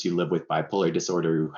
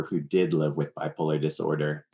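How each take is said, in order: First: Said in the usual way. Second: "did" stressed as a correction. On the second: Real, not acted. Guest correcting himself about loved ones, stress on "did". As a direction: lean on "did" to correct the tense.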